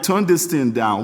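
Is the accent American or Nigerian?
Nigerian. It is said in a Nigerian accent. "In my Nigerian way"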